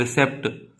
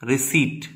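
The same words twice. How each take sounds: First: रिसेप्ट with the p sounded, ri-sept; रिसेप्ट said the wrong way with a clear p; wrong pronunciation. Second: रिसीट with a silent p, ri-seet; रिसीट said the right way, long ee; correct pronunciation. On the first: Teacher shows the common wrong रिसेप्ट. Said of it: "वो गलत pronunciation है". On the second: Teacher models the correct रिसीट. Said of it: "क्या पढ़ते हैं". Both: Shown as a demonstration.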